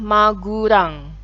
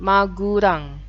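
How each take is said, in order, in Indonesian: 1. Diucapkan dengan bunyi u dan r. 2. Diucapkan dengan bunyi u dan r.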